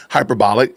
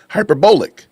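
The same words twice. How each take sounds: First: Said in the usual way. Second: Hyperbolic as hyper-BOWL-ic, long "o" in the middle; affected foreign pronunciation. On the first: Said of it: "instead of saying hyperbolic". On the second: Retold or imitated. Host mimicking Candace's put-on pronunciation, hyperbolic as hyper-BOWL-ic. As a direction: stress a rounded "bowl" inside hyperbolic. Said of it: "a foreign pronunciation to it".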